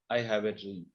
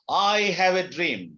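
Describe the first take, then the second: First: It is said flatly, like plain reading. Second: It is said with strong, real emotion. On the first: The speaker calls it wrong. "That's not enough" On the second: The speaker calls it right. "pronouncing it with the real emotion"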